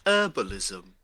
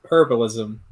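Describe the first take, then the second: First: "herbalism" said as "erbalism", the H dropped; silent h. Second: "herbalism" with a clear H sound at the start; h pronounced. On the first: Correcting the others, "herbalism" without the H. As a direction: drop the H in "herbalism". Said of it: "Where you don't say the H". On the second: Teaching Kronk to say "herbalism" with the H. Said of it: "You say the H". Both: Shown as a demonstration.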